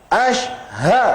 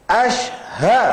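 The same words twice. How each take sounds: No difference in how they are said.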